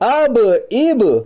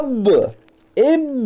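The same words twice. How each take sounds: First: The b sound ends in a short bounce. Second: The b sound is doubled and held. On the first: The speaker calls it right. "सही है" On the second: The speaker calls it wrong. "इस तरह नहीं पढ़ना है ... वो भी गलत है ... बा पर तशदीद आती है"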